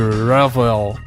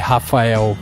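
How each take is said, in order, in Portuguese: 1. É dito com sotaque do inglês americano. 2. É dito com sotaque do português brasileiro. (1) "se eu for pros Estados Unidos... Vão me chamar de Rafael" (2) "nunca vão me chamar de Rafael"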